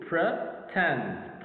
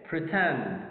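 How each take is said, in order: First: "Pretend" split into two separate beats; syllable by syllable. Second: Said in the usual way. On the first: Shown as a demonstration. Teacher counting two syllables for learners, syllable by syllable. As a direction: say "Pretend" slowly, pausing between Pre and tend. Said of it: "We got two". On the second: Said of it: "How many syllables do we have?".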